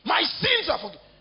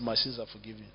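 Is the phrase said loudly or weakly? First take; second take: loudly; weakly. First: It is shouted loudly and forcefully. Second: It is said quietly and weakly. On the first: The speaker firmly believes it. The speaker calls it right. "Then he now shouted" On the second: The speaker does not yet truly believe it. The speaker calls it wrong. "Very weak statement"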